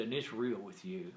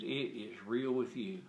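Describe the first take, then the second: First: Said in the usual way. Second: "is" said in full, slower and deliberate; stress on IS. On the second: Retold or imitated. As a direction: restate it slowly, leaning on "is". Friend restates it with uncontracted emphasis.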